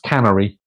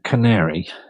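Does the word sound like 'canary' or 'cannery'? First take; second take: cannery; canary. First: It sounds like the word cannery. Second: It sounds like the bird name canary. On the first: The speaker calls it wrong. "was pronounced canary. Um, alas, it was not" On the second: The speaker calls it right. "It's actually pronounced canary"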